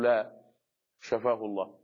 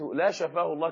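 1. هناك وقفة بعد 'la'. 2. لا توجد وقفة بعد 'la'. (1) "أقول: لا، شفاه الله" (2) "سمعت لا شفاه الله، كأنك تدعو عليه"

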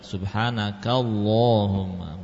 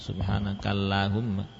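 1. L pada Allahumma itu tebal. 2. L pada Allahumma itu tipis. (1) "dibaca tebal"

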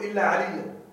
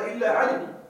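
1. تنتهي الكلمة الأخيرة بصوت 'a' مضاف. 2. تنتهي الكلمة الأخيرة بالسكون دون حركة زائدة. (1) "المفروض ان يقول الا عليا" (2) "هذا على لغه ربيعه"

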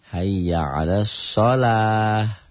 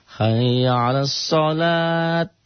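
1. Kata terakhir berakhir dengan bunyi h. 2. Kata terakhir berakhir dengan bunyi t. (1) "T-nya jadi ha"

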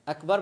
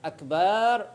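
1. الحركة بعد الباء قصيرة. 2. الحركة بعد الباء طويلة. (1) "أكبر معناها كبير" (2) "ولا يمد في الباء ... إذا تعمل أكبر يولي معنى آخر خطير"

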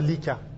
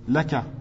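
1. La première voyelle est un son 'i'. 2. La première voyelle est un son 'a'. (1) "ils disent pas Lika" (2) "C'est quoi le plus propre?"

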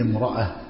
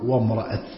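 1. تنتهي الكلمة بصوت هاء خفيف. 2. تنتهي الكلمة بصوت تاء واضح. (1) "جاءت مطلقة وتم الوقوف عليها اضطراريا أو اختباريا يقف عليها كذا" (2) "جاءت بالتاء المفتوحة فعند الوقف تقول"

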